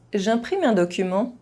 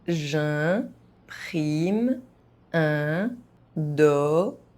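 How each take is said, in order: First: It is spoken fast, with some sounds dropped. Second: It is spoken very slowly, syllable by syllable. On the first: "fast, as a native speaker would do" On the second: "very slowly"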